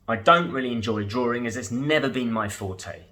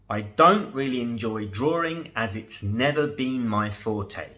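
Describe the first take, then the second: First: It is spoken at a normal conversational speed. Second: It is spoken a little more slowly than usual. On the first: "once at normal speed" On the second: "the second time a little slower"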